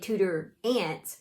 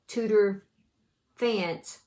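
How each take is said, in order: First: The second word begins with a vowel sound. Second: The second word begins with an f sound. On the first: "the P H be silent" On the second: "with all the letters"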